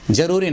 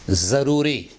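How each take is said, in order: First: 'ज़रूरी' with j in place of z; wrong pronunciation. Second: 'ज़रूरी' with a buzzing initial z; correct Urdu pronunciation. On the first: Teacher rejects the common version, mispronounced. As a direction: begin 'ज़रूरी' with a j sound. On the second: Teacher corrects the learners' word, pronounced properly. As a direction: start 'ज़रूरी' on a clear z. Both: Shown as a demonstration. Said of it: "ज़रूरी नहीं".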